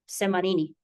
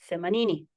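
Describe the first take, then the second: First: The word begins with an s sound. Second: The word begins with a th sound. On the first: "don't be surprised if you hear" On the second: "proper coastal Swahili"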